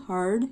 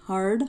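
No difference in how they are said.

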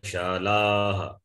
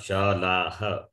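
First: The final ha blends softly into the vowel. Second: The final ha is pronounced as a distinct syllable. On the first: The speaker calls it right. "It goes along with the vowel" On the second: The speaker calls it wrong. "that ha should not be pronounced distinctly"

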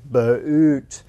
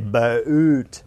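First: The vowel is a long two-part glide. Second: The vowel is a long two-part glide.

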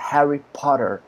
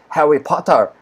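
First: It is said in an American English accent. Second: It is said in a British English accent. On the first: "In English, it is a" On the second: "but in British English, it is a"

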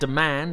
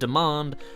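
First: The word is said with an American accent. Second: The word is said with a British accent. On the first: The speaker calls it wrong. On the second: The speaker calls it right.

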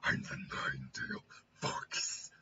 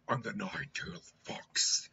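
First: A harsh, throat-straining fox voice. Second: A lighter, easier fox voice.

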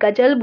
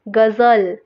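First: The word is said with a plain j sound. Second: The word is said with a z sound. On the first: "अगर नुक्ता नहीं लगा होता तो इसको मैं गजल बोलती" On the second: "ज ज साउंड आ जाती है"

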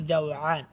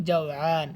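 The two takes are said the same way.

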